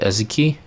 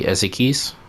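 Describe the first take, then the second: First: The name ends without a final s sound. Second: The name ends with a final s sound. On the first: The speaker calls it wrong. "I've always pronounced it Ezeki" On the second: The speaker calls it right. "there's an S there"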